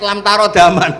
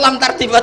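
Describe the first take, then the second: First: A vowel separates the r from the d. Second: The r runs straight into the d. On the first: The speaker calls it right. "ternyata tuh di head lam tarodaman" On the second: The speaker calls it wrong. "Dia baca satu lam tardiman"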